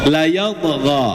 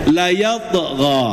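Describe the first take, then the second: Both takes have the same delivery.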